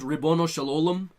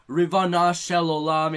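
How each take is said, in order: First: The first word is said with o vowels. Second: The first word is said with ah vowels. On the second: "in every other"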